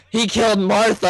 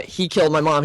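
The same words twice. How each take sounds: First: "Martha" said higher, mocking; mocking wrong line. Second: Said in the usual way. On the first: Shown as a demonstration. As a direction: poke fun at saying "Martha". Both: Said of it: "He wasn't like".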